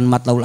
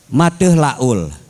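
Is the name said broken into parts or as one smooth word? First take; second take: smooth; broken. First: The name is said as one smooth word. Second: The name is broken into separate parts. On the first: The speaker calls it right. "dia bukan Matlaul Anwar manggilnya" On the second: The speaker calls it wrong. "Mateh, Mateh Laul"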